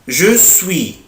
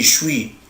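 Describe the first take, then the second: First: Both words are pronounced fully and separately. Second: The words are squeezed into one short syllable. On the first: This is the standard form. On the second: This is casual street speech.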